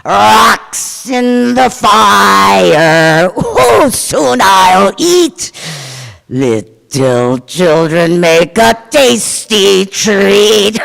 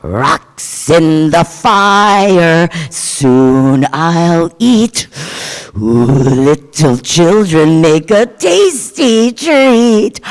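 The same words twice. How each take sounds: First: Very slow, louder sung chant; sung, belt it out, pleased with herself; gleeful horrible singing. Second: Slow, drawn-out ogre chant, louder; horrible singing. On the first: Giant sings for the flattering children, slow and loud. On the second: Giant basket woman sings over her fire, horrible slow chant. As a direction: croon it like a gleeful monster. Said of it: "in a very horrible voice". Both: Acted.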